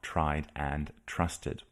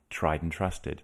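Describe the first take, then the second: First: The word 'and' is pronounced in full. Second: The word 'and' is reduced to 'n'. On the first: The speaker calls it wrong. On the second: The speaker calls it right. "the and in binomials gets reduced to n"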